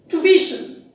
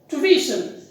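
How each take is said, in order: No difference in how they are said.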